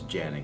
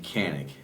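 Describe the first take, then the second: First: The name begins with a J sound. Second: The name begins with a hard K sound. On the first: This is how Turkish speakers say it. The speaker calls it right. "but its pronunciation is Janik" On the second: This is how the spelling looks to an English reader. The speaker calls it wrong. "Phonetically, it would be Canik"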